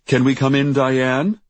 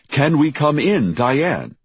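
First: Raised, louder call ending in a rise; reporter behind door. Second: Raised, louder call with a falling end; reporter on television. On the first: Reporter asking Diane to let him in, calling. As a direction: call through the door, pitch up. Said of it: "said the voice behind the door". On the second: Reporter's voice repeated from the television, calling. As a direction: project it high, dropping on the name. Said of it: "the same voice repeated from the television". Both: A narrator's reading.

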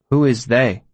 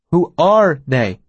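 First: Said in the usual way. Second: "Who are they" with "are" stretched, slow and firm; corrective stress. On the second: Acted. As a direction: correct by leaning on "are", slowly. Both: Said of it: "he corrected".

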